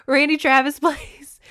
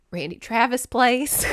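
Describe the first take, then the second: First: Higher and louder, laughing through it; laughing repeat. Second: Said in the usual way. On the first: Shown as a demonstration. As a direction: repeat it again, cracking up with excitement.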